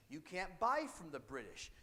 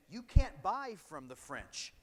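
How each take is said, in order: First: Said in the usual way. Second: Loud, slow, forceful decree; teacher booming a mock royal trade ban; loud British command. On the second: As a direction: bark it out slowly like a ruling power.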